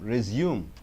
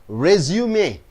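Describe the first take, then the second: First: The stress is on the second syllable. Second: The stress is on the first syllable. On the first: It means to continue. "You stress on the second syllable" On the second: It is a document listing work experience. "You first as the first syllable resume"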